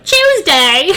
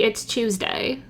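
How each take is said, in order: First: It is said with excitement. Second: It is said calmly, without excitement.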